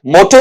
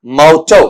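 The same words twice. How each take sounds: First: मोटो with pure "o" in both syllables, "mo-to"; wrong pronunciation. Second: मोटो with "au" vowels, roughly "mau-tau"; correct pronunciation. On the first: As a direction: say मोटो as the mistaken "moh-toh". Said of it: "मोटो नहीं". (मोटो का गलत उच्चारण, दोनों में सीधा "ओ") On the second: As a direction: model मोटो firmly with open diphthongs, not "moh-toh". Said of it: "क्या बनता है बेटा आपका वहां पर?". (मोटो का सही उच्चारण, "औ" ध्वनि के साथ) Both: Shown as a demonstration.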